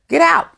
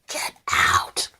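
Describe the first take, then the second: First: It is said in a normal speaking voice. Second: It is said in the spooky Amityville Horror voice.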